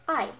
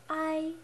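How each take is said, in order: First: The word is said short and firmly. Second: The pitch stays level and flat. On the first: "pretty much just saying a word firmly" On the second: "on the first tone"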